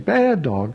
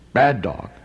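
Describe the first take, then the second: First: It is said in a happy, warm tone. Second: It is said in a harsh, scolding tone. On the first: The listener feels praised. "his tail will thump and he'll be happy and excited" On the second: The listener feels scolded. "and the dog will cower"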